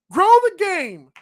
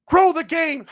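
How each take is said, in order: First: Sarcastic slogan. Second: Said in the usual way. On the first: Shown as a demonstration. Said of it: "Stop saying it and do something about it".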